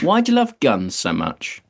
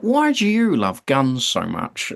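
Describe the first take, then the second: First: It is said in his own voice. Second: It is said as an Alan Partridge impression.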